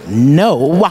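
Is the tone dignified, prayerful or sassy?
sassy. It is said with sassy attitude.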